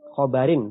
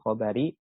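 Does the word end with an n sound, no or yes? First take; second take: yes; no. First: The word ends with an added n sound. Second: The word ends on a vowel without n. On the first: The speaker calls it right. "dibaca dengan tanwin" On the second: The speaker calls it wrong.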